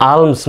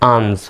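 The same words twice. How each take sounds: First: "আর্মস" said aams, no l; silent L. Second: "আর্মস" said aalms, l heard before m; spelling-reading "আর্মস" with the l pronounced; wrongly sounded L. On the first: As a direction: say "আর্মস" with long a straight into ms. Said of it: "নয় কিন্তু আর্মস". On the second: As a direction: say "আর্মস" as alms with audible l. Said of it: "আর্মস নয় কিন্তু". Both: Shown as a demonstration.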